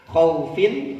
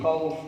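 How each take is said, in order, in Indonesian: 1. Kata ini berakhir dengan tambahan bunyi -in. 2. Kata ini berhenti pada bunyi f di akhir.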